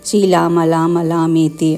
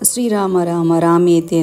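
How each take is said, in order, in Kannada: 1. Rama ವನ್ನು l ಶಬ್ದದಿಂದ ಹೇಳ್ತಾರೆ. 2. Rama ವನ್ನು r ಶಬ್ದದಿಂದ ಹೇಳ್ತಾರೆ. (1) "ರಾಮ ಅಂತ ಇದ್ರು ಲಾಮ ಅಂತಾದರೂ ಹೇಳ್ತಾವಲ್ಲ" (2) "ಶ್ರೀರಾಮ ರಾಮ ರಾಮೇತಿ ಅಂತ ಹೇಳೋ ಅಂದರೆ"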